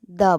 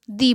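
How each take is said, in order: First: "द" with a short neutral vowel; THE as thuh. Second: "दी" with a long ee vowel; THE as thee. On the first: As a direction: pronounce THE as "द", not drawn to ee. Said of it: "तो इसे द बोला जाता है". ("द" में छोटे अ की आवाज़) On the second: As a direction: pronounce THE as "दी", rhyming with see. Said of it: "तो इसे दी बोला जाता है". ("दी" में लंबी ई की आवाज़) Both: Shown as a demonstration.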